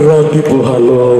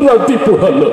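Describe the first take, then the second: First: It is recited in a fierce, menacing way. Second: It is recited in a weeping, crying voice. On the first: "আরো ভয়ঙ্কর ভাবে বললো" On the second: "কানতে কানতে বলতেছে"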